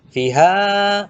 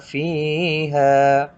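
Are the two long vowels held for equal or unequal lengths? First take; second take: unequal; equal. First: The two long vowels are held unequal lengths. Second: The two long vowels are held equal lengths. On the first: The speaker calls it wrong. "nah tidak boleh" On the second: The speaker calls it right. "Harus sama"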